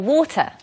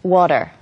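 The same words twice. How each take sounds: First: The final R sound is left silent. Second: The final R sound is clearly pronounced. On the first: This is how people in the UK say it. "But we would say water" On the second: This is how North Americans say it. "in America you would say, or in Canada you'd say like"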